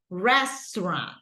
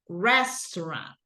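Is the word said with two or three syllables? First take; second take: two; two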